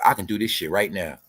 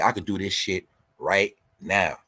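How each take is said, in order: First: Said in the usual way. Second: Said slower, each word laid down; slow it down to drive it home; slow, deliberate repeat. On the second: Shown as a demonstration. To his viewers, repeating his boast slowly and deliberately. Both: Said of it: "Feel me?".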